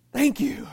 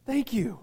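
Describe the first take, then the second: First: Grateful call to the congregation; louder thank you. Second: Said in the usual way. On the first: Real, not acted. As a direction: Thank punched louder and higher. Thanking an agreeing listener.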